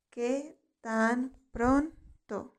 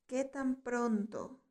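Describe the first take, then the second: First: "¿Qué tan pronto?" very slow, each word set apart; slow word-by-word repetition. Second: Said in the usual way. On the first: Shown as a demonstration. Teacher models "¿Qué tan pronto?" for learners to repeat, slow and segmented. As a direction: stretch and separate the words of "¿Qué tan pronto?".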